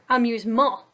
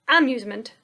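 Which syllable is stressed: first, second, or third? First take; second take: third; first. First: The stress is on the third syllable. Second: The stress is on the first syllable.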